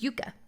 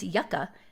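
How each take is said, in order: First: It is pronounced the South American way. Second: It is pronounced the Californian way. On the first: The name refers to South America. "if it's South America" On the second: The name refers to the valley in California. "if it's California"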